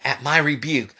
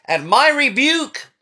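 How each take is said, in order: First: Said in the usual way. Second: Rising rebuke. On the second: Acted. Preacher voicing God's rebuke.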